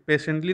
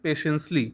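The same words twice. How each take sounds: First: "patiently" with a T sound before "-ly"; wrong pronunciation. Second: "patiently" with an S sound replacing the final T; corrected pronunciation. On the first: Teacher rejects this reading of "patiently", T sounded before "-ly". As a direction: say "patiently" as PAY-shunt-lee. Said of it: "patiently नहीं". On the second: Teacher corrects the reading of "patiently", saying it PAY-shuns-lee. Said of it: "sorry, patiently". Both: Shown as a demonstration.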